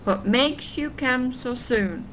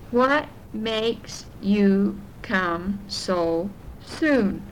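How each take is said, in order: First: The line is spoken at a faster pace. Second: The line is spoken at a slower pace.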